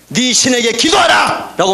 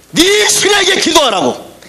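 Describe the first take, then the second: First: Shouted command. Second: Urgent plea. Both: Retold or imitated. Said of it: "흔들려 깨우면서".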